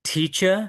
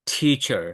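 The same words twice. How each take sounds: First: "Teacher" with no final r, rising; British non-rhotic "Teacher", lifted at the end; British pronunciation. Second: "teacher" with final r sounded, falling; American pronunciation. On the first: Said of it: "British পিপলরা লাস্টে যখন র". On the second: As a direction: curl an r onto the end of "teacher". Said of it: "American people pronounce it as". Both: Shown as a demonstration.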